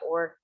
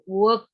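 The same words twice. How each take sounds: First: It is said in an American accent. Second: It is said in a British accent. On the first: "Kalau orang Amerika work" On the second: "work kalau orang British ya"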